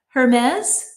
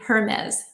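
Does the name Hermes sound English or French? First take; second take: French; English. First: The name is said with a French pronunciation. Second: The name is said with an English pronunciation. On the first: The speaker calls it wrong. "I'm so used to like saying the pronunciation, the French pronunciation of the expensive purses" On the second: The speaker calls it right. "but evidently it's supposed to be Hermes"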